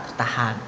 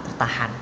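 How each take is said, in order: No difference in how they are said.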